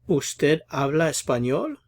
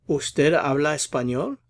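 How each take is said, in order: No difference in how they are said.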